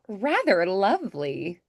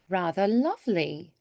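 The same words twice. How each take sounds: First: The vowels are said with wide mouth corners. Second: The vowels are said with pinched mouth corners. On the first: The speaker calls it wrong. "instead of" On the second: The speaker calls it right. "a little pinch at the corners of your mouth"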